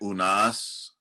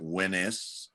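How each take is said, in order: First: The name is said as 'Oo-nas'. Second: The name is said as 'Wee-nis'. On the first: "some people say Unas" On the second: "other people pronounce it Winis"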